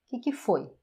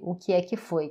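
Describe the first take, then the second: First: Sounds are cut, giving a shortened form. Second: Every word is said in full.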